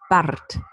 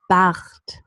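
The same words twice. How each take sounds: First: The R is trilled with the tongue tip. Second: The R is a friction sound in the throat. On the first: "Now with a post-alveolar trill" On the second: "With the pre-uvular or uvular fricative"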